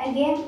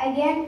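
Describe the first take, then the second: No difference in how they are said.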